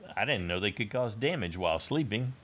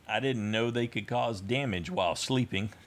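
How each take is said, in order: First: It is read as a question, ending high. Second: It is read as a statement, ending low. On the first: It is a wondering question. The speaker calls it right. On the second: It is a plain remark. The speaker calls it wrong.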